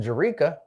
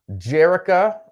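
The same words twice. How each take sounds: First: "Jerika" stressed on the middle syllable; better-known pronunciation. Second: "Jerica" stressed on the first syllable; first pronunciation. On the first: Host corrects to viewer's known name, "Jerika" stressed mid-word. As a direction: say "Jerika" as juh-REE-kuh. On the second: Host reads a viewer's name, "Jerica" stressed up front. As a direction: say "Jerica" as JERR-ih-kuh, higher. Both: Shown as a demonstration. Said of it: "or as she's better known".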